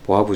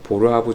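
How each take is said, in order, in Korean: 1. 이 이름은 r 소리 없이 발음해요. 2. 이 이름은 r 소리를 넣어 발음해요. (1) "제가 배울 때는 보아부 증후군으로 이렇게 배웠기 때문에" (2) "다른 말로는 뭐 보르하브 증후군이라고도 하고 약간 발음상의 문제 때문에"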